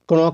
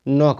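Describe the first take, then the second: First: The word starts with a k sound. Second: The word starts with an n sound. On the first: The speaker calls it wrong. "क्रॉक नहीं पढ़ना है" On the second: The speaker calls it right. "नॉक पढ़ेंगे"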